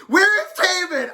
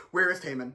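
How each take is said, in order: First: Shouting. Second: Same outrage, held down softer; quieter. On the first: Ranting to viewers about [name]'s snub, shouting. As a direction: yell it in disbelief, full voice. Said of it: "I was shouting". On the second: Toning it down for the dog, quieter. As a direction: rein it in so the dog stays calm. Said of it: "I'll be quieter". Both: Real, not acted.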